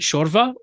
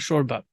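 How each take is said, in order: First: The middle consonant is a V sound. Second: The middle consonant is a B sound. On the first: "Is it shorva" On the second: "or shorba?"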